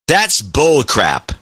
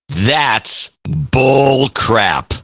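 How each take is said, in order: First: It is said at a normal pace and pitch. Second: It is said slower, deeper and drawn out. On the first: "I'll say it with the way when I mean it" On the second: "A little slower. A little deeper and extend it a little bit"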